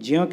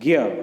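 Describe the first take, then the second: First: It is pronounced with a 'j' sound, 'jya'. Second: It is pronounced with a 'g' sound, 'gya'. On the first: This is how the letter is built from its parts. "इसे वैसे ज्य ज्य कहते हैं" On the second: This is how the letter is actually read aloud. "लेकिन इसका उच्चारण हम करते हैं ज्ञ"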